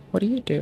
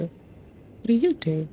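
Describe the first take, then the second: First: Said in the usual way. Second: Slow mock-puzzled drawl; slow drawn-out question. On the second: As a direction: stretch every word out slowly. Repeats question, puzzled at menu.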